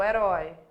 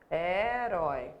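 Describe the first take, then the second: First: Said in the usual way. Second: "Herói" slowly split, with a long first vowel and a full RÓI; silabado. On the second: Shown as a demonstration. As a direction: draw out "Herói" syllable by syllable. ("Herói" devagar, separando e alongando: he-rói) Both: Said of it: "é a última sílaba".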